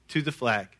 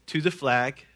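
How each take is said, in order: Both takes have the same delivery.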